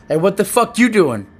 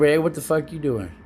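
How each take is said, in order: First: Loud, high, aggressive challenge; confrontational demo. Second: Casual friendly demo. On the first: Showing Ella how tone changes a message, confrontational and loud. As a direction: snap it as an angry accusation. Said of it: "Like when I say ... See the difference?". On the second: Showing Ella the same words meant harmlessly, casual and easy. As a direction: ask it as a harmless, easygoing question. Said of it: "Compared to ... See the difference?". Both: Shown as a demonstration.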